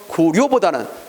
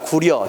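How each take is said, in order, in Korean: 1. 마지막 음절 모음은 원순이고, 더 센 소리예요. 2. 마지막 음절 모음은 평순이고, 더 쉬운 소리예요. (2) "편한 쪽으로 발음하다 보니까"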